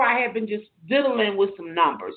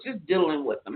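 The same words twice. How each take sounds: First: Said in the usual way. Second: Diddling with them, repeated softer and lower; soft aside. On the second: Real, not acted. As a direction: drop it into a soft, low afterthought.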